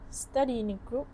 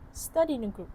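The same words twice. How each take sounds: First: The vowel of 'in' is fully pronounced. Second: The vowel of 'in' is dropped. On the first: "Instead of" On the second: "it becomes"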